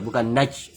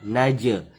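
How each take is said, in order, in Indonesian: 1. Huruf j dihentikan datar tanpa memantul. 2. Huruf j dilepas dengan memantul. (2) "maka dia difantulkan qalqalah"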